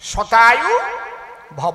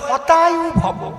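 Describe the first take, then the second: First: The first word begins with an s sound. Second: The first word begins with an h sound. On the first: May you live a hundred years. The speaker calls it right. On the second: May your life be destroyed. The speaker calls it wrong.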